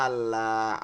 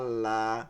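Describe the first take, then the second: No difference in how they are said.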